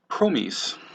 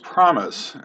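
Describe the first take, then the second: First: The word is said the German way. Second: The word is said the normal English way. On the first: The speaker calls it wrong. "the German choristers wanted to sing that word as promise" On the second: The speaker calls it right. "The word in question was promise"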